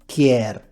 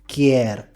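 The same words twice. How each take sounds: Both takes have the same delivery.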